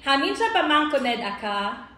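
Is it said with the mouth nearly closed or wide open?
wide open. It is said with the mouth wide open.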